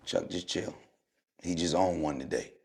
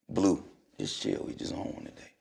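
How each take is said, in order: First: Low, softer murmured advice; quietly calm a teammate down; hushed aside. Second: Softer still, trailing into a whisper; near whisper. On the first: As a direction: teammate telling Chuck to chill, hushed. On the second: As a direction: teammate calming Blue, whispered aside. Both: Retold or imitated. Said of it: "Eric Snow".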